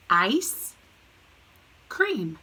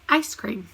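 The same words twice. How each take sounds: First: Ice and cream said as two separate words with a pause; split into two words. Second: Said in the usual way. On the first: Shown as a demonstration. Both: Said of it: "Put 'em together".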